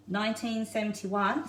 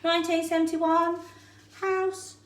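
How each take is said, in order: First: Said in the usual way. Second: Bingo caller. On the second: Pretend. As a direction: call the numbers like a bingo hall. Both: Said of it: "I feel like I'm bingo caller here".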